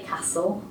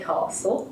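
First: It is said with a northern English vowel. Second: It is said with a southern English vowel. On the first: "I could never say castle" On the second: "I had to say castle, because I come from the south"

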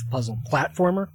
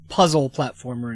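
First: The stress falls on the word platformer. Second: The stress falls on the word puzzle. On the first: The game is mainly a platformer. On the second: The game is mainly a puzzle game.

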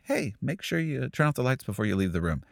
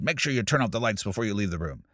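First: It sounds friendly and relaxed. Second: It sounds angry and annoyed.

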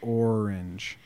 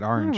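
First: It is said with a general American accent. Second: It is said with a New Jersey accent.

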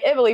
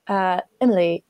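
First: It is said in an American accent. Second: It is said in an imitated foreign accent. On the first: "I'm just going to speak in an American accent" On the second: "I'm doing a horrible accent"

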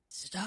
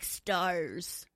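First: It is said as a breathy sigh. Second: It is said crisp and gravelly.

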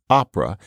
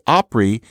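First: The word has three syllables, ending in 'ah'. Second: The word has two syllables, ending in 'ee'. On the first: This is the standard form. "instead of opera" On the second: This is a colloquial regional form. "people say Opry"

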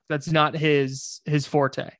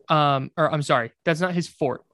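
First: The last word has two syllables, ending in 'ay'. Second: The last word has one syllable, like 'fort'. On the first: The speaker calls it wrong. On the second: The speaker calls it right.

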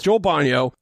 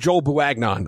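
First: The surname ends in a short 'yo' sound. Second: The surname is read out as it is written. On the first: The speaker calls it right. "but it's not. It's Joel Bonyo" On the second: The speaker calls it wrong. "I know that's not how you pronounce it"

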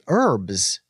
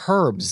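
First: The word starts with a vowel, no h sound. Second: The word starts with a clear h sound. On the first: This is the American way of saying it. "where I'm from, we say herbs" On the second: This is the British way of saying it. "the UK where you have the hard H herbs"

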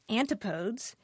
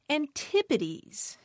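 First: The stress falls on the first syllable. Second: The stress falls on the second syllable. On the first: The speaker calls it wrong. "isn't pronounced antipodes" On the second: The speaker calls it right. "it's pronounced antipodes"

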